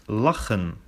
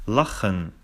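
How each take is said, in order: The two takes are said the same way.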